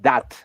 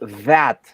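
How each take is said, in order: First: The word begins with a hard d-like sound. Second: The word begins with a soft th sound. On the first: The speaker calls it wrong. "This is not that" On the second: The speaker calls it right. "is that"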